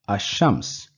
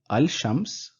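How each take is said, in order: First: The L merges into a doubled SH sound. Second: The L sound is pronounced before the SH. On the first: The speaker calls it right. "rather I will pronounce it as Ash-Shams" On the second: The speaker calls it wrong. "I will not say Al-Shams"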